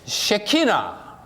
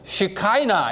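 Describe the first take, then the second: First: It is said as 'sheh-kee-nah'. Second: It is said as 'shih-kai-nah'. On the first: This is the Hebrew pronunciation. "유대인들은 쉐키나" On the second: This is the English pronunciation. "영어로 읽으면 시카이나 이렇게 읽어요"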